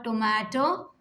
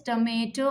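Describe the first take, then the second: First: "tomato" as toh-MAH-toh; second accepted pronunciation. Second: "tomato" as tuh-MAY-toh; first accepted pronunciation. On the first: Teacher gives pupils the other accepted form, "tomato" as toh-MAH-toh. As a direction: say "tomato" with an open ah in the middle. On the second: Teacher gives pupils one accepted form, "tomato" as tuh-MAY-toh. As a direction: say "tomato" with a long A in the middle. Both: Shown as a demonstration. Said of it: "So both are accepted".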